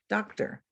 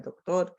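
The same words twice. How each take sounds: First: Said in the usual way. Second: Doctor said in Spanish, stressed on the last syllable; Spanish pronunciation. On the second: Shown as a demonstration. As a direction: say doctor as Spanish dok-TOR with a tapped r. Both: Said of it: "words that are similar in spelling and meaning".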